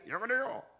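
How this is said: The voice sounds clear, as if from nearby. "가까이"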